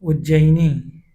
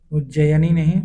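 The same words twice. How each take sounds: First: "उज्जैनी" said slowly as "u-jjai-nee"; correct slow spelling. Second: "उज्जैनी" with a stressed "नहीं" rising at the end; wrong form. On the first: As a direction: draw out "उज्जैनी", each syllable clear. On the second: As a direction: say "उज्जैनी" then lift "नहीं" to reject it. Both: Shown as a demonstration.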